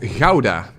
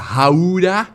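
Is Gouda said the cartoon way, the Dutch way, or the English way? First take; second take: Dutch; cartoon. First: It is said with the native Dutch pronunciation. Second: It is said in a cartoon character's odd pronunciation. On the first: The speaker calls it right. "The city is called Gouda" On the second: The speaker calls it wrong. "how Bubble Bass says it"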